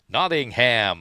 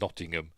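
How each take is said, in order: First: It is said with an American pronunciation. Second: It is said with a British pronunciation. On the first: "in the American way" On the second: "even the American actors say Nottingham"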